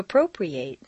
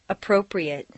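First: The final syllable has a full 'ate' vowel. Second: The final syllable has a reduced vowel. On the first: It is used as a verb. "it's a full A sound" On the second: It is used as a noun or adjective. "completely reduced"

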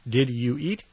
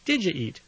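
First: 'You' is said in full, separate from 'did'. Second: 'Did you' is reduced to sound like 'didja'.

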